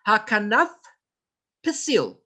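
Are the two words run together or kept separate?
separate. The two words are kept clearly separate. The speaker calls it right. "not hakanapsil"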